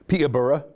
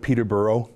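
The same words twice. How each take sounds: First: The name is said the British way. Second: The name is said the Canadian way.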